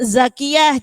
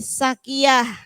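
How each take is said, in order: First: The word begins with a z sound. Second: The word begins with an s sound. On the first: The speaker calls it right. "za jangan sampai kita bablas ke" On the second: The speaker calls it wrong. "Kadang zakiyah jadi sakiyah"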